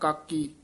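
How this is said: The two syllables are run quickly together. The speaker calls it wrong. "ਇਕੱਠਾ ਕਹਿਣਾ ਕਾਕੀ ਨਾ ਕਹਿਣਾ"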